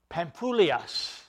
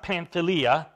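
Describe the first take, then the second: First: The name is said the Greek way. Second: The name is said the familiar English way. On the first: The speaker calls it right. "the way it's actually pronounced in the Greek" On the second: The speaker calls it wrong. "I know that we like to pronounce it that way"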